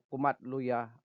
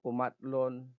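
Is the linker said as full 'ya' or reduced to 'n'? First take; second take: full; reduced. First: The linker is said fully as a separate ya. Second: The linker is shortened to a final n sound.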